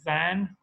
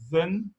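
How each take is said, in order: First: The vowel is said full, not reduced. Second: The vowel is reduced to a weak schwa. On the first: "Brunei, these would be" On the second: "in British American English, we say"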